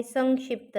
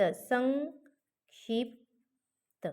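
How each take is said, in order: First: Said in the usual way. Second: संक्षिप्त drawn out very slowly, nasal ङ held before क्ष; slow demo pronunciation. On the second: Shown as a demonstration. (संक्षिप्त सावकाश, अनुनासिक लांबवून) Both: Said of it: "इथं कशाचा उच्चार".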